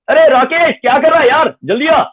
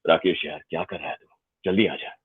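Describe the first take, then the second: First: It is said in a high, shouting pitch. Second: It is said in a lower, deeper pitch.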